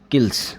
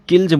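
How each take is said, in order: First: The word ends with a hissing s sound. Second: The word ends with a buzzing z sound. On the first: The speaker calls it wrong. "किल्स ऐसे नहीं बोलना है आपको, गलत बोल रहे हो आप" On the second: The speaker calls it right. "इसको किल्ज किल्ज बोलेंगे"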